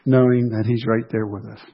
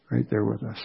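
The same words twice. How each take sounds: First: Said in the usual way. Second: Much softer, almost to himself; a hushed repeat of the line; soft echo. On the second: Real, not acted. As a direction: let the echo fall away quietly.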